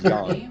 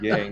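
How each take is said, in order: First: The name is said the Chinese way. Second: The name is said the English way. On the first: The speaker calls it right. "the proper pronunciation in Chinese" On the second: The speaker calls it wrong. "he calls himself Yang"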